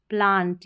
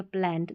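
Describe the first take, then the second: First: 'प्लांट' with a long open aa; long-vowel variant. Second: Second 'प्लांट' with the short a of 'cat'; front-vowel variant. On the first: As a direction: say 'प्लांट' with a broad 'ah'. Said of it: "दोनों तरीके से". ('प्लांट' को लंबे आ से बोलें) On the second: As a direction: say 'प्लांट' as plant with an 'ant' ending. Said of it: "एंट या आंट". ('प्लांट' को 'प्लैंट' जैसा, ऐ के स्वर से बोलें) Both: Shown as a demonstration.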